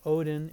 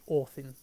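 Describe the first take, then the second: First: It is said with a modern English pronunciation. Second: It is said with an Old Norse pronunciation. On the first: The speaker calls it wrong. "Instead of Odin" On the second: The speaker calls it right. "it would be Othin"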